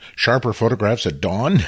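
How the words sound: It is said as a question, rising at the end.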